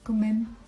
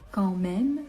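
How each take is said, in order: First: It is said quickly, the first word sounding like 'comme'. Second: It is said carefully, the first word sounding like 'quand'. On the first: The speaker calls it wrong. "quand on parle vite, on a tendance à prononcer rapidement, donc ça ressemble un peu à quand même" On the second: The speaker calls it right. "mais non. Quand même"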